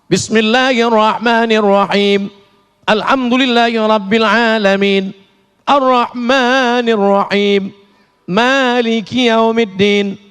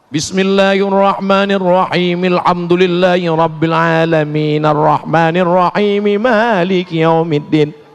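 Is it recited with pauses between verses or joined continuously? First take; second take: pauses; joined. First: It stops with a pause after each verse. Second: The verses run together without stopping.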